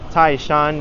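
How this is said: The name is said in Mandarin, as Taishan. "it's pronounced Taishan in Mandarin"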